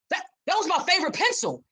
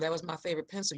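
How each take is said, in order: First: It is said in an intense, angry tone. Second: It is said in a calm, gentle tone.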